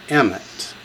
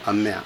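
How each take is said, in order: First: The stress is on the first syllable. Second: The stress is on the second syllable. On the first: The speaker calls it wrong. "they just put the accent on the wrong syllable" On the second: The speaker calls it right. "Accent the second syllable"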